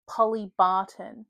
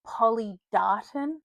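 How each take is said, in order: First: "Polly Barton" spelled out slowly; careful name correction. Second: "Polly Darton" said slowly, D in Darton; careful misread name. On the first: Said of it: "it didn't say [name]. It said". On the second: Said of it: "I thought it had said". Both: Shown as a demonstration.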